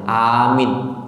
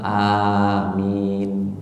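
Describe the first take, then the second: First: Only the first vowel is held long. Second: Both vowels are held long. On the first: The speaker calls it wrong. "jangan panjang awal A-nya aja. Amin itu salah" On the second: The speaker calls it right. "dibaca panjang semua"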